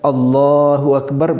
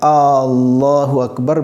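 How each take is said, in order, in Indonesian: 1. Vokal pendek tetap dibaca pendek. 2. Vokal pendek dipanjangkan.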